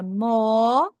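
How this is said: British accent, with a lengthened vowel. "O britânico fala more, alongando o som da vogal O"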